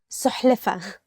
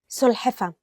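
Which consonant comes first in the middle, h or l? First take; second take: h; l. First: The h sound comes before the l sound. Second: The l sound comes before the h sound. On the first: The speaker calls it wrong. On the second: The speaker calls it right.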